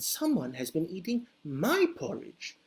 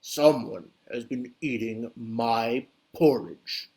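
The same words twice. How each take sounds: First: It is said in a medium, moderate voice. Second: It is said in a deep, booming voice. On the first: A middle-sized bear is speaking. "said Mama Bear in her medium-sized voice" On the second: A big, grown bear is speaking. "said Papa Bear in a great booming voice"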